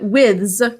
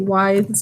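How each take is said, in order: First: The word does not rhyme with scythes. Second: The word rhymes with scythes. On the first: The speaker calls it right. "withs is correct" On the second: The speaker calls it wrong. "It might be withes, like scythes"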